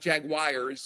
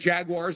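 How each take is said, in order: First: The word is said the British way. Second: The word is said the American way. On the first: The speaker calls it wrong. "and not Jaguars, as the uh, the folks in England say" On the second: The speaker calls it right. "thank you for saying Jaguars"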